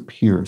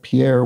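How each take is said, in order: First: The name is said the way locals say it. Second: The name is said in a non-local way. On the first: "it's pronounced Pierre by the locals, so Pierre" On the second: "I pronounced it Pierre"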